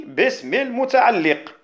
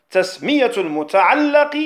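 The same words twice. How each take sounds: First: المتعلق with an "i" after the doubled lam; kasra on المتعلق. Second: المتعلق with an "a" after the doubled lam; fatha on المتعلق. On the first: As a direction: say المتعلق as al-muta'alliq. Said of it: "بالكسر". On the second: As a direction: say المتعلق as al-muta'allaq. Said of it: "تسمية المتعلق بالفتح". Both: Shown as a demonstration.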